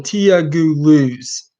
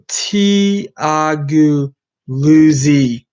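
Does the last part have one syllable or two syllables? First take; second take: one syllable; two syllables. First: The last part is said with one syllable. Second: The last part is said with two syllables. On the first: "or is it just one syllable?" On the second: "Is it two syllables for the second one, the Luzi"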